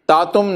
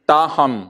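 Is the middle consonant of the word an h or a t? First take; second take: t; h. First: The middle consonant is a t sound. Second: The middle consonant is an h sound. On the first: The speaker calls it wrong. "तातुम नहीं" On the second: The speaker calls it right.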